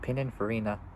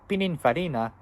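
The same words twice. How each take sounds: First: The name is said in a plain, unaccented way. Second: The name is said with an Italian accent.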